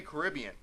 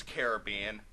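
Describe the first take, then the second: First: Caribbean as kuh-RIB-ee-un; Caribbean with rib stressed. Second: Caribbean as care-uh-BEE-un; Caribbean with bee stressed. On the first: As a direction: punch the second syllable of Caribbean. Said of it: "generally when I'm talking about it". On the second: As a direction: punch the third syllable of Caribbean. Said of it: "when I'm talking about the Disney ride". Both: Shown as a demonstration.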